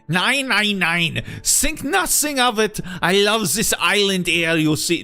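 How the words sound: The line is spoken with an attempted German accent.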